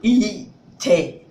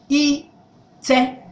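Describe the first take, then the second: First: The first syllable is low in pitch. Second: The first syllable is high, the second mid. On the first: It means something other than rub. "if you say E down" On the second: It means to rub. "Rub is having up and middle"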